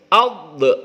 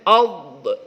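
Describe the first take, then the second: Both takes have the same delivery.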